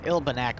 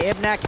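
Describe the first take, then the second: First: The name is said with an L sound. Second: The name is said without an L sound. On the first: The speaker calls it right. "It's Ilbanek" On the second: The speaker calls it wrong. "I always pronounce it wrong. I never pronounce the L"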